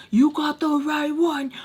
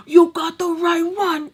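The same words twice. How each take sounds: First: Higher-pitched mock threat; pissed. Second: High, louder furious threat; pissed shout. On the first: Tommy warning the girls, raised-pitch threat. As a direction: warn them off, still holding back. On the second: Retold or imitated. Tommy yelling the warning louder, high furious threat. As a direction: let it explode at them. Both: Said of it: "just pissed".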